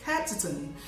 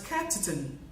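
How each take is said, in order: First: The word 'on' has a reduced vowel. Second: The word 'on' has a reduced vowel.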